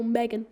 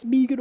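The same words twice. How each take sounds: First: Said in the usual way. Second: "Megan" said as BEE-gun, long ee; "Megan" with a long first vowel; alternative pronunciation. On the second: Shown as a demonstration. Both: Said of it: "if it's Megan or Megan".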